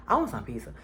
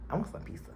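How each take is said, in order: First: Said in the usual way. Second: Whispered craving. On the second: Real, not acted. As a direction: whisper "I want some pizza" with a longing sigh.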